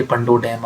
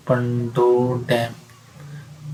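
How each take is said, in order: First: Said in the usual way. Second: Pando डैम stretched very slowly and softly; slow, softer Pando डैम for emphasis; drawn-out repetition. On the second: Shown as a demonstration. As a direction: draw out each syllable of Pando डैम. Repeating the name slowly for students.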